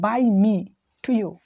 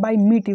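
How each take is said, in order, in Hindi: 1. हर शब्द साफ़ और अलग-अलग बोला गया है। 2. शब्द जल्दी-जल्दी बोले गए हैं और आपस में जुड़ गए हैं। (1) "ऐसे बोला कि बाई मी टू यू, इस तरह से बोलना है" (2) "ऐसे नहीं बोलना कि बाई मीट यू"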